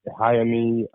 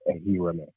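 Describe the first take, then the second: First: The name begins with a 'hay' sound. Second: The name begins with an 'eh' sound. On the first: The speaker calls it wrong. "I've been called" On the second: The speaker calls it right. "that's how it's pronounced"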